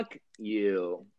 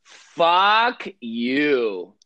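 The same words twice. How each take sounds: First: Soft, dismissive curse; quiet fuck you. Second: Loud drawn-out fuck you; exaggerated. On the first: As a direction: toss it off softly. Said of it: "throw up the finger". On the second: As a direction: lean hard into the curse. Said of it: "a exaggerated". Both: Shown as a demonstration.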